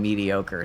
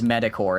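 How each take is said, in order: First: The word is said like 'mediocre'. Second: The word is said like 'metacore'. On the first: The speaker calls it right. "instead of mediocre" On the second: The speaker calls it wrong. "called me an idiot for pronouncing it as metacore"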